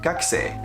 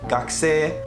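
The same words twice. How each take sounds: First: The pitch drops partway through the word. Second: The pitch stays level through the word. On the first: The speaker calls it wrong. "you cannot pronounce it like gakusei. It's not supposed to go down" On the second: The speaker calls it right. "it's supposed to stay in one line. So, gakusei"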